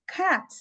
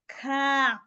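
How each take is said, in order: First: The sounds are said quickly as one word. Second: The sounds are stretched out slowly one by one. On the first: "when you say it quickly together" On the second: "You string it along"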